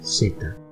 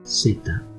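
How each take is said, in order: First: The first consonant sounds like English s. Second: The same.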